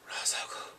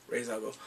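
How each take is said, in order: First: Whispered Ra's al Ghul; hushed realization of the name; awed whisper. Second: Said in the usual way. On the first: Retold or imitated. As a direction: breathe the name in shock.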